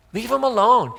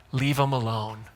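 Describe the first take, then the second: First: Higher and louder, firm; emphatic repeat. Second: Said in the usual way. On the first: Pretend. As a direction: Leave 'em alone, pushed higher and louder. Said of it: "This is Jesus". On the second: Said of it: "And he's like".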